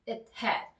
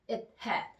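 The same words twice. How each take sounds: First: The breath briefly stops after it. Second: The breath briefly stops after it.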